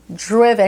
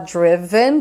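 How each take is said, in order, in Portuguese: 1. A vogal na última sílaba não é pronunciada. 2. A vogal na última sílaba é claramente pronunciada. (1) "comer o final" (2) "do jeito que é bem escrito assim"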